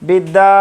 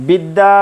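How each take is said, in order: The two takes are said the same way.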